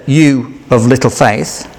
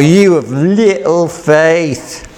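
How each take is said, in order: First: Slow, with a gentle rise at the end; questioning rebuke. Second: Slow, each word set down, falling at the end; firm rebuke. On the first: Jesus gently questioning Peter, slow rising tone. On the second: Jesus firmly rebuking Peter, slow and falling. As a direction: say it heavily, with finality. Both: Shown as a demonstration. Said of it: "hard to know how Jesus said".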